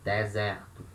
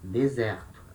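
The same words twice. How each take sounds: First: It is said with open E sounds, Bahia style. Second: It is said with the Rio accent's E sounds.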